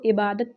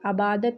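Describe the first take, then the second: First: The word begins with an 'i' vowel. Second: The word begins with a long 'a' vowel. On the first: The speaker calls it right. "इसको इबादत पढ़ेंगे" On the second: The speaker calls it wrong. "आबादत या उबादत नहीं पढ़ेंगे"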